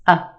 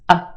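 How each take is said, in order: First: The vowel is reduced to a schwa. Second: The vowel is reduced to a schwa.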